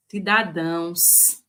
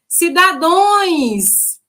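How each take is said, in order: First: Said in the usual way. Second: The unprepared candidate saying "Cidadões"; wrong plural. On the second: Retold or imitated. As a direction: drag out "Cidadões" like a confident wrong answer. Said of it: "vai dizer o quê?".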